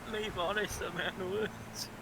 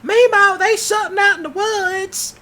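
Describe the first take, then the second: First: Quiet repeat. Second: Put-on high, loud child's scream for grandma; kid screaming. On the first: Retold or imitated. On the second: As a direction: yell it running home scared. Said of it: "they'll run back home screaming".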